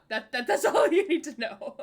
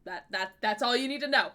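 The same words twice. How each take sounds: First: Laughing through the words. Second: Said in the usual way. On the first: Real, not acted. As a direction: giggle while saying it, louder.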